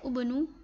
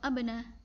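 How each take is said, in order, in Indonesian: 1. Kata ini diawali dengan vokal u. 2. Kata ini diawali dengan vokal a. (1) "bukan ubnu" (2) "atau abna"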